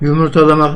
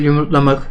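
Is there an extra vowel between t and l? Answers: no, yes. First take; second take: yes; no. First: An extra vowel is heard between t and l. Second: No vowel is heard between t and l. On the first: The speaker calls it wrong. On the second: The speaker calls it right.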